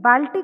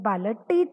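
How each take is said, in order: First: The l and t are joined directly. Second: A short vowel separates the l and t. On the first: The speaker calls it right. "बाल्टी कहते हैं" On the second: The speaker calls it wrong. "बालटी तो नहीं कहते हैं"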